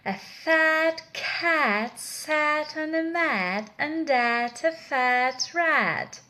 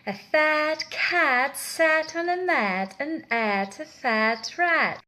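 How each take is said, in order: The two takes are said the same way.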